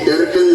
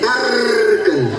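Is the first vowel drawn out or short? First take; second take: short; drawn out. First: The first vowel is short and clipped. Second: The first vowel is long and drawn out. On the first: The speaker calls it wrong. "अशी टर्कन नाही" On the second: The speaker calls it right.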